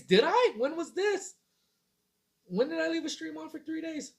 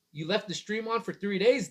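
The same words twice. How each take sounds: First: High, disbelieving questions; "left the stream on for three days" asked high and in disbelief; incredulous. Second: Said in the usual way. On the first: Real, not acted. Streamer asking the chat in disbelief, high and incredulous. Surprised at a viewer's claim.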